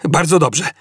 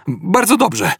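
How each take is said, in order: First: Raised-pitch, decisive exclamation; called out. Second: High, light conclusion with relief; relieved. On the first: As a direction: call it out to the crew, no real shout. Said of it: "zawołał". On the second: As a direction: let relief lift the pitch right up. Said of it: "podsumował z ulgą Zafod". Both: A narrator's reading.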